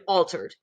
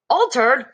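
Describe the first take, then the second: First: Said in the usual way. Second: Higher and louder, startled echo; surprised. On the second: Acted. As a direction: bounce the word back in shock. Mr Jenkins shocked echo.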